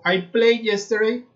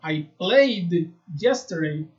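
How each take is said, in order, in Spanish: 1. El verbo termina sin sonido d. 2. El verbo termina con un sonido d claro. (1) "estoy diciendo yo juego ayer" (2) "Yo debería decir"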